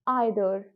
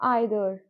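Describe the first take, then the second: Both takes have the same delivery.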